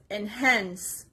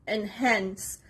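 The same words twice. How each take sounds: The two takes are said the same way.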